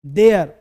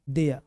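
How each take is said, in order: First: "देयर" with the final r sounded; wrong DEYAR. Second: "देयर" said as "देया", r silent; low "देयर" ending on an open vowel; correct DEYA. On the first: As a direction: say "देयर", closing on a clear r. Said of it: "देयर नहीं sir". (गलत उच्चारण "देयर", र बोलकर) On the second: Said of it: "इसका sound है". ("देयर" को "देया" बोलें, र के बिना) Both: Shown as a demonstration.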